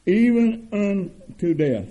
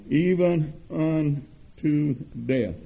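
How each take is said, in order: First: "Even" lifted higher and louder, still slow; louder repeat. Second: Even unto death drawn out slow; slow emphasis. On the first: Preacher echoing the verse back to the church, louder. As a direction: ring out "Even unto death". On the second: Preacher stressing to his congregation, slow and weighty. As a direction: linger on "even" slowly. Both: Real, not acted.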